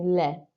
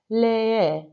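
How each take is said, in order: First: The vowel is short and single. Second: The vowel is drawn out, almost doubled. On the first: The speaker calls it wrong. "rather than just saying le" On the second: The speaker calls it right. "you can almost hear the, the double E there"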